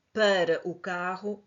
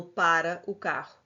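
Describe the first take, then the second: First: "para" with reduced first vowel, like "pâra"; "para" read as the preposition, first a closed. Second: "para" with an open, stressed first a, like "pára"; "para" read as the verb, PÁ-ra. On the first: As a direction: say "para o carro" slowly with a closed, muted first a in "para". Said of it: "a frase não é". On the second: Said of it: "Para é o verbo". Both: Shown as a demonstration.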